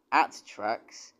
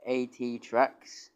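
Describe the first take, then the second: First: AT said as one word, "at"; misread as a word. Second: A T said as two separate letters, "ay tee"; slow, careful initials A T, "ay tee"; letters spelt out. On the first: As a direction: run the letters AT together as the word "at". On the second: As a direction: spell out A T slowly, letter by letter. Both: Real, not acted. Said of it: "I read it wrong the first time".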